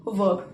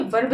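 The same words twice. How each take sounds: First: वर्ब said R-less, like "vub"; correct pronunciation. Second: वर्ब with an audible R before the B; wrong pronunciation. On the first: Teacher correcting pupils' English, वर्ब with silent R. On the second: Teacher showing pupils what to avoid, वर्ब with R sounded. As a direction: let the R be heard in वर्ब. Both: Shown as a demonstration. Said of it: "वर्ब नहीं, वर्ब".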